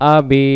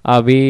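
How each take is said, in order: Both takes have the same delivery.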